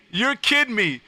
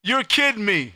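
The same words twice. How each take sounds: The two takes are said the same way.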